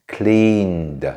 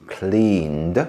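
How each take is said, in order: The two takes are said the same way.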